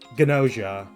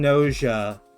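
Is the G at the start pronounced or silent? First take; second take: pronounced; silent. First: The word starts with a hard g sound. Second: The word starts with n, no g sound. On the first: "they're pronouncing it with the hard G" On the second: "I'm pronouncing Noja with the silent G"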